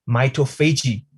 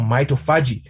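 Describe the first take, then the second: First: Mitophagy said as my-toe-FAY-jee; alternative pronunciation. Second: Mitophagy said as my-toe-FAH-jee; alternative pronunciation. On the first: Introducing a keyword to the audience, mitophagy as my-toe-FAY-jee. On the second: Offering the other pronunciation of the keyword, mitophagy as my-toe-FAH-jee. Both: Shown as a demonstration. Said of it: "depending on how you pronounce it".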